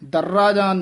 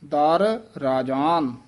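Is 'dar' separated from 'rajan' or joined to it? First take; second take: joined; separated. First: The two words run together without a break. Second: 'Dar' is set apart from 'rajan'. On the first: The speaker calls it wrong. "ਦਰਰਾਜਾਨ ਨਹੀਂ ਕਹਿ ਦੇਣਾ" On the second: The speaker calls it right. "ਦਰ ਵੱਖਰਾ ਬੋਲਣਾ ਹੈ, ਰਾਜਾਨ ਇਕੱਠਾ ਕਹਿਣਾ ਹੈ"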